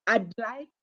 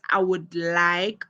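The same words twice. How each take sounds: First: "I'd like" with "I would" cut to "I'd"; contracted "I'd". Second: Said in the usual way. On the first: Shown as a demonstration. Teacher explains the short form, contracted "I'd". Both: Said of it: "means the same as".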